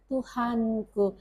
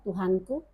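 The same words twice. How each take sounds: First: It is said in a pleading, lamenting tone. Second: It is said in a plain, matter-of-fact tone. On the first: The speaker is complaining to God. "dia mengadu dengan Tuhan" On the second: It is ordinary information. "informasi biasa"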